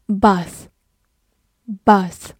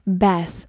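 First: "Bath" with a long British "ah" vowel; British pronunciation. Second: "bath" with the American short "a" of "cat"; American pronunciation. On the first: Teacher reading a review word to learners, British long-a "Bath". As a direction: say "Bath" as "bahth", British style. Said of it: "美式发音也可以读作". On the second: Teacher adding the American reading for learners, short-a "bath". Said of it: "美式发音也可以读作bath". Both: Shown as a demonstration.

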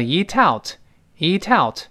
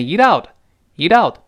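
First: "eat out" linked with a clear t, ee-tout; theoretical linking. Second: "eat out" linked, t softened to a d; linked and voiced. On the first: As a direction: carry a crisp t into "out" in "eat out". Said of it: "理论来说应该读成". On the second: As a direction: run "eat out" together as ee-dout. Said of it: "连读呢变成". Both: Shown as a demonstration.

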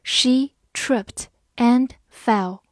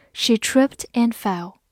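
First: Very slow, one word at a time; slow, separated teacher's model; slow reading. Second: Said in the usual way. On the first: Shown as a demonstration. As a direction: read it slowly, pausing after each word. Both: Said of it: "慢慢来读".

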